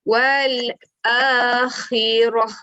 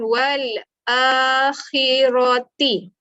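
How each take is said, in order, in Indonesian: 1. Kata ini berakhir dengan bunyi 'h'. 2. Kata ini berakhir dengan bunyi 'ti'. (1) "dibaca sebagai wal akhirah" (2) "jangan baca jaditi"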